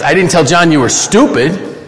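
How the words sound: The word "stupid" carries the main stress. A different insult was used. "I told him you were an idiot"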